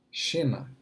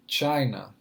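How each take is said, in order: First: Said in the usual way. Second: "China" as CHAI-na, opening with a tch; English pronunciation. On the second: Shown as a demonstration. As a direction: say "China" in English, first vowel like "eye". ("China" em inglês, com som de "tchai") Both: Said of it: "o que seria inglês".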